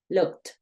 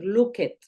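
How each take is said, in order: First: The ending sounds like a short T. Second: The ending does not sound like a T. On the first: The speaker calls it right. "Termina en K y sigue una T" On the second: The speaker calls it wrong. "Tú no vayas a decir looked"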